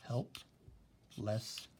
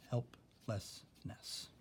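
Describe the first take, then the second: First: Very slow, each syllable drawn out; slow syllable demo. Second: Whispered syllable demo. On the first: Teacher showing the class how to split Helplessness, very slow. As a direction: stretch Helplessness into help-less-ness, slowly. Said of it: "how you would do syllables". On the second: Teacher whispering Helplessness for the class to split, slow. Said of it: "are all different syllables". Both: Shown as a demonstration.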